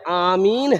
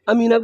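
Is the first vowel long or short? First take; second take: long; short. First: The first vowel is long. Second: The first vowel is short. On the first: The speaker calls it right. "सही लफ्ज जो है वो आमीन है" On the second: The speaker calls it wrong. "हम लोग दुआ करते अमीन अमीन"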